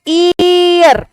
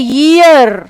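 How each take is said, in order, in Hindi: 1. शब्द सीधे स्वर ध्वनि से शुरू होता है। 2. शब्द य ध्वनि से शुरू होता है। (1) "वो ई पढ़ेगा ... जो कि बिल्कुल गलत है" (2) "ईयर में य का साउंड आता है"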